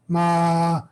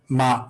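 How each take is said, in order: First: The syllable is said with a high tone. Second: The syllable is said on a level, regular tone. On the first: The word means horse. "high tone" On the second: The word means come. "the regular tone is like the way they teach it is like ma"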